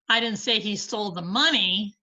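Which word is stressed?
money. The stress falls on the word money. He took something other than the money. "but he stole something"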